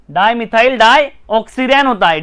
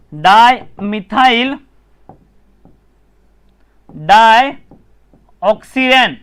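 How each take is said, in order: First: Said in the usual way. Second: डायमिथाइल डायऑक्सिरेन said very slowly, each part apart; slow spelled-out name. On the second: Shown as a demonstration. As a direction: drag out डायमिथाइल then डायऑक्सिरेन for the class. (डायमिथाइल डायऑक्सिरेन को बहुत धीरे, अलग-अलग बोलो)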